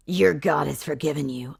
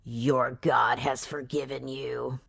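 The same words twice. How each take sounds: First: Said in the usual way. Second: Mock tender hero. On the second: Hero slow and soft.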